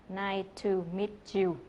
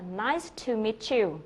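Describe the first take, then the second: First: "Nice to meet you" with the stress misplaced on "to"; "to" stressed, "you" left light; wrong stress. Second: Slow "Nice to meet you" with the weight falling on "you"; "you" lands stressed at the end with a falling tune; natural sentence stress. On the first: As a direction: show the unnatural version, hitting "to". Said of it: "chứ không phải là". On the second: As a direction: say it like a native, leaning on "you". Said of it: "người bản xứ nói là". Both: Shown as a demonstration.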